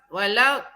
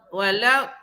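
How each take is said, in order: The two takes are said the same way.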